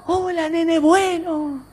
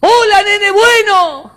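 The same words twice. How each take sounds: First: High, soft, slow echo. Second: High, slow, loud call; friendly calling out. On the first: Mountain returns the boy's kind greeting, echoing. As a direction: repeat it faintly like a distant echo. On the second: Boy greets the other child kindly, calling out. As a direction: holler a sweet greeting across a valley. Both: Acted.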